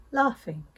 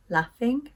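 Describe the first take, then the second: First: "laughing" as "lahfing", long vowel; southern long A. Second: "Laughing" as "laffing", short a as in cat; Northern short A. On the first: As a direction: say "laughing" the RP way, ah as in father. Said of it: "In the south of England". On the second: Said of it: "I pronounce these words with an A sound". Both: Shown as a demonstration.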